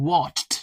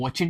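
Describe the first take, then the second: First: The ending is only a short t sound. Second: The ending is an extra full syllable. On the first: The speaker calls it right. "ये है वॉच्ड, टी sound है" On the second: The speaker calls it wrong. "ये वॉचेड नहीं है"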